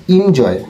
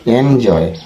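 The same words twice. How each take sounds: First: "এনজয়" starting with an i vowel, injoy; old "এনজয়" pronunciation. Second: "এনজয়" starting with an open e, en-joy; correct "এনজয়". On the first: Teacher quoting the old habit, "এনজয়" said injoy. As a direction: open "এনজয়" as in-joy. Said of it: "আমরা এতদিন বলতাম". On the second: Teacher correcting viewers, "এনজয়" said en-joy. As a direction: begin "এনজয়" on en, never in. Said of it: "এটা হবে". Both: Shown as a demonstration.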